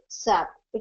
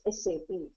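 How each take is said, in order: First: It is said as a single word. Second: It is said as separate letters. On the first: The speaker calls it wrong. "never say" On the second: The speaker calls it right. "It is always"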